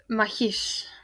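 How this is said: The final s sounds like sh.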